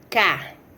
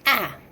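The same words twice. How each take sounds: First: The consonant is plain, with no extra air. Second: The consonant has a sharp glottal catch.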